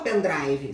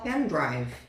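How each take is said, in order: First: It is pronounced with Brazilian Portuguese sounds. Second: It is pronounced with English sounds. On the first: The speaker calls it wrong. "Você não vai falar" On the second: The speaker calls it right. "você vai falar"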